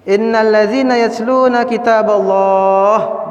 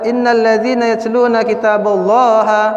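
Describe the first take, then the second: First: The last word ends on a consonant, vowel dropped. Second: The last word ends with an added final vowel. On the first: The speaker calls it right. "berhenti di Allah" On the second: The speaker calls it wrong. "tidak boleh baca begitu"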